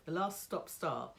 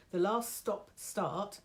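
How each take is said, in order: First: Said in the usual way. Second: Slightly husky, throat catching; slow, a bit croaky start; frog in throat. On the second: Real, not acted. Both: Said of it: "I'm so sorry for the frog in my throat".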